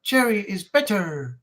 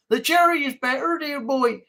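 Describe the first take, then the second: First: Slow, drawn-out Yorkshire accent. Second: A lightly posh English voice with a rising tune; posh put-on accent. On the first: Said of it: "Why do I sound like a Yorkshireman". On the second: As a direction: play a toff saying dear boy. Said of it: "sound like a Yorkshireman". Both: Shown as a demonstration.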